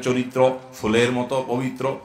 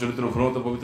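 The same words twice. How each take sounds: First: It is said slowly and calmly. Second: It is said fast and hurriedly. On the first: The praise sounds sincere and pleases the listener. The speaker calls it right. "সুন্দর করে বলো" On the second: The speaker seems to have lost their mind. The speaker calls it wrong. "এত হুলস্থুল করলে"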